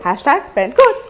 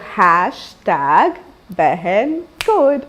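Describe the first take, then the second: First: It is said quickly. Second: It is said slowly.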